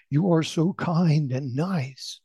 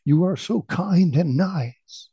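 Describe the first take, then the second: First: Slow, higher, drawn-out call. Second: Slow, higher, drawn-out echo. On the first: Father calls kind words into the valley, drawn-out call. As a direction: call it out slowly, stretching the words. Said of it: "the father then loudly said". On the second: Valley returns the father's kind words, lilting echo. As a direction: send it back slowly like an echo. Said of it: "the voice echoed back". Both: A narrator's reading.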